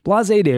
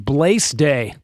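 First: The word has two syllables, ending in 'zay'. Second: The word has one syllable, rhyming with 'maze'. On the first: The speaker calls it right. "I'm surprised I pronounced that correctly" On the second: The speaker calls it wrong. "if I read it without the little thing above the E, it's Blaise Day"

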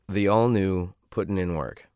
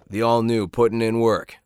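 First: It is flat, bored and low in energy. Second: It has a little more energy and lift.

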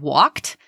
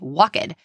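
First: The word ends in a plain t sound. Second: The word ends in an extra ed syllable. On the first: The speaker calls it right. "it ends in the t sound" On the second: The speaker calls it wrong. "if students think ed always says ed, they'll say walked"

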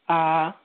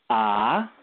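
First: The pitch stays high and level. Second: The pitch rises steadily upward. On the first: "the first tone" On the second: "the second tone"

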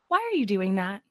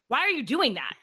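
First: The voice sounds gentle and calm. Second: The voice sounds snippy and sharp. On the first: The speaker is curious and caring. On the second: The speaker is annoyed and accusing.

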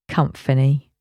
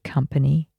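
First: The word is said like a blend with comfort. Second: The word is said with its usual pronunciation.

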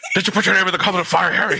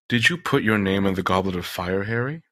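First: The question is asked in an aggressive voice. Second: The question is asked in a calm voice.

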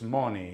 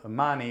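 First: The first vowel sounds like 'oh'. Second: The first vowel sounds like 'ah'. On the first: "if you're from Sicily, ... it's moni" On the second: "instead of mani"

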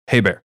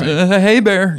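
First: It is said calmly at a low, even pitch. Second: It is said high-pitched and panicked, nearly yelling.

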